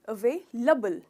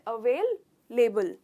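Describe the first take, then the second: First: The word is said as one smooth unit. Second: The word is split into two separate chunks. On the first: The speaker calls it right. "इसका pronunciation है available" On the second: The speaker calls it wrong. "टुकड़े करके"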